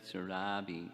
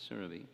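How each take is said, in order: First: Surabhi with a long, stressed middle "RAH"; mispronounced name. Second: Surabhi with short, unstressed middle vowel; correct name pronunciation. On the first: Speaker shows class the wrong name, mispronounced as sur-RAH-bee. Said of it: "in China, they always say it". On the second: Speaker corrects the class on her name, SUR-uh-bee. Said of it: "that's how you pronounce her name". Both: Shown as a demonstration.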